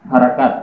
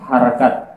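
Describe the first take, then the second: Both takes have the same delivery.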